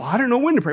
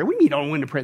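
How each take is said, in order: First: Mock helpless excuse, slightly raised pitch; put-on clueless complaint; imitating a clueless believer. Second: Low-pitched, dismissive disbelief; unimpressed scoffing question; incredulous echo. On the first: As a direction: play someone who has no idea. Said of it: "And you go". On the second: Real, not acted. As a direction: throw the excuse back, voice dropped. Preacher echoes the excuse back.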